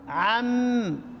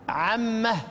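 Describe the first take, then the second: First: The word ends on a bare m sound. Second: The word ends with an added h sound. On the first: This is the ordinary pausal form. "لو وقفنا عليها عم" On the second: This is the variant pausal form of one reciter. "طب اذا وقف البزي هناك عمه"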